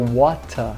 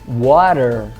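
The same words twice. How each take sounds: First: The final R becomes an A-like vowel. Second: The final R is pronounced, American style. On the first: "no sul da Inglaterra seria water, é, comendo o R final" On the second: "inglês americano"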